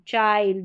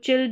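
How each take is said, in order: First: The vowel is an eye sound. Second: The vowel is a short i sound. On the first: The speaker calls it right. "इस तरीके से" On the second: The speaker calls it wrong. "करके नहीं पढ़ेंगे"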